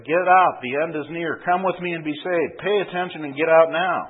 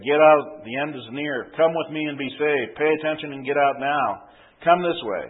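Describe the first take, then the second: First: Louder urgent shouting; calling out. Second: Urgent street preacher call. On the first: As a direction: cry out the warning, louder. Protester cries out again. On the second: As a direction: shout the warning to the crowd. Protester calling out warning. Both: Acted.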